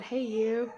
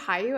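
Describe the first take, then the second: First: The first syllable sounds like 'hey'. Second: The first syllable sounds like 'hi'. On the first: The speaker's usual pronunciation. "I always call it Hey You" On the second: A possible pronunciation someone else might use. "is it Hi You?"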